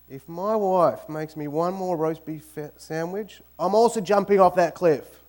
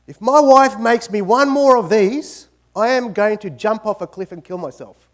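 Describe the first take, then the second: First: Said in the usual way. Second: Loud, higher mock despair; hammed-up loud threat; exasperated outburst. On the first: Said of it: "And he says". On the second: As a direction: rant like a man fed up with sandwiches. Husband's joke complaint about sandwiches.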